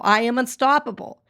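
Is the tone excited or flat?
excited. It is said with excitement and energy.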